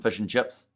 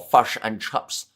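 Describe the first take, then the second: First: The vowels are said in the speaker's usual way. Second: The vowels are bent in an exaggerated stereotype.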